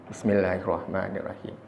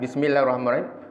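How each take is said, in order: First: It is said softly, under the breath. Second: It is said loudly and clearly aloud.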